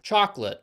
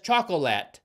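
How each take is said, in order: First: The middle O is dropped, giving two syllables. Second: The middle O is pronounced, giving three syllables. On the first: This is the usual American way. "At least that's how Americans say it" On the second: The speaker could not have known the word is spelled with that O. "despite not knowing that there's an O in the word"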